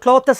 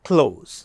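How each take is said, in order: First: A th sound is said before the ending. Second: No th sound is said before the ending. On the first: The speaker calls it wrong. "നമ്മൾ ക്ലോത്തസ് എന്ന് പറയാറുണ്ട്" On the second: The speaker calls it right. "The correct pronunciation is ക്ലോസ്"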